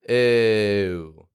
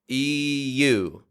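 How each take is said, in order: First: The sound glides smoothly without an extra vowel. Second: An extra vowel splits the sound in two. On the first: The speaker calls it right. "Ew is American" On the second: The speaker calls it wrong. "it's distorting your sound just a little bit"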